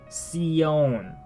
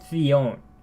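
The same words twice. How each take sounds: First: The c sounds like s, Latin American style. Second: The c sounds like th, with a lisp.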